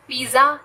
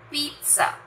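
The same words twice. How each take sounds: First: The middle consonant is a j sound. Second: The middle consonant is a ts sound. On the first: The speaker calls it wrong. "पिज्जा नहीं है" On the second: The speaker calls it right. "इसकी pronunciation है पिज्जा"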